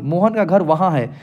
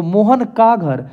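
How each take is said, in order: First: Said in the usual way. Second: Mohan का घर said slowly with a falling stress on का; slow teacher emphasis. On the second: Shown as a demonstration. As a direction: spell out Mohan का घर slowly, leaning on का. (धीरे-धीरे, का पर ज़ोर देकर) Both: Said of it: "तो मोहन का घर".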